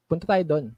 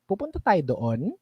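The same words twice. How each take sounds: First: "Punta tayo doon" held level to the end, no rise; flat statement tune. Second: "Pupunta tayo doon" with the pitch rising at the end like a question; rising question tune. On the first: Coach showing the confident way: flat statement tune. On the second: Coach showing the unsure way: rising question tune. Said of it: "pataas, patanong". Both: Shown as a demonstration.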